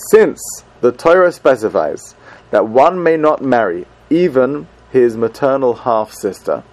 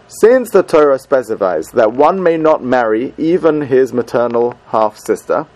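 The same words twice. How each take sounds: First: It is said slowly. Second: It is said at normal speed.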